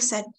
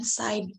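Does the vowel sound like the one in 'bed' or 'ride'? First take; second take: bed; ride. First: The vowel is short, like in 'bed'. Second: The vowel is long, like in 'ride'. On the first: The speaker calls it right. "Dibacanya itu said" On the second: The speaker calls it wrong. "bukan side ya"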